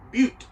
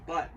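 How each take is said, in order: First: "Butte" said as byoot, with a long yoo sound; "Butte" stressed and louder, like beaut; correct pronunciation. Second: "but" said as the plain word but, short vowel and hard t; "but" as the wrong reading of the town name; mispronounced Butte. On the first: Correcting people who misread Butte, Montana, said as byoot. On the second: How most people misread Butte, Montana, as "but". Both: Shown as a demonstration. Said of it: "most people would say".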